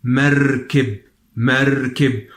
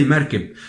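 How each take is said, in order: First: MERKIB with the r heavily rolled and held; emphasised trill. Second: Said in the usual way. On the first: Shown as a demonstration. Teacher stresses the letter for learners, long trill in merkib. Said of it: "we don't have all this emphasis on the word". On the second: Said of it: "We just say merkib".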